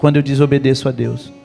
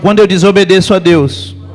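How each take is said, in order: First: It is said at normal, softer volume. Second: It is said louder and more forcefully.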